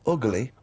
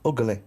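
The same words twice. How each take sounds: First: Said in the usual way. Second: "Ugly" said as three syllables, ug-uh-ly; extra syllable. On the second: Retold or imitated. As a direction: stretch "Ugly" into ug-uh-ly like Carl. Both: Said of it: "He gets an extra syllable in the word ugly".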